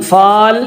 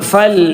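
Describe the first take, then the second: First: The vowel is long. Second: The vowel is short. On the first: The speaker calls it wrong. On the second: The speaker calls it right.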